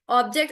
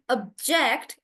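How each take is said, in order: First: "Object" with the stress on OB; noun stress. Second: "object" with the stress on JECT; verb stress. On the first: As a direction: lean on the first syllable of "Object". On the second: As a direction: punch the second syllable of "object". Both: Shown as a demonstration. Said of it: "the syllable stress is changing".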